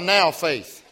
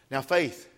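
First: The word now carries the stress. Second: The word faith carries the stress. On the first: The focus is on faith in the present moment. "I like to back it up and say now" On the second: The focus is on having faith. "We always put the emphasis on faith there"

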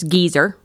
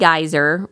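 First: It is said with the British pronunciation. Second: It is said with the American pronunciation.

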